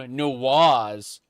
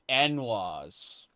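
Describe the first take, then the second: First: The word starts with a short 'nu' sound. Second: The word starts with a separate 'en' sound. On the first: This is the pronunciation the character did not use. "He didn't call them Nuwas" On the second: This is the older pronunciation the character used. "He used the Morrowind pronunciation"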